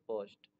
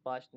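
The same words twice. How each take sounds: First: पोस्ट with an oh sound; oh vowel. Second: पास्ट with an aa sound; wrong aa vowel. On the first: Teacher correcting the reading of post, पोस्ट with oh. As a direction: say पोस्ट with oh, not aa. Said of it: "ओ को ओ से भी पढ़ते हैं". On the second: Teacher warning against a misreading, पास्ट with aa. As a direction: say पास्ट with aa instead of oh. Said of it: "ओ को आ नहीं पढ़ेंगे". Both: Shown as a demonstration.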